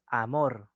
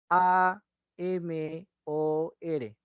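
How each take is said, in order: First: Said in the usual way. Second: "A M O R" very slowly, one letter at a time; spelled letter by letter. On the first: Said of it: "Como palabra, tal cual". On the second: Shown as a demonstration. Teacher showing what you don't say, "A M O R" slowly spelled out. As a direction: spell out "A M O R" with each letter held. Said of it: "Tú no me deletreas cada sonido".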